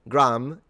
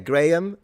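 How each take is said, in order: First: The name is said with an American pronunciation. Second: The name is said with a British pronunciation. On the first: "Graham is in America" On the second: "Graham is in England"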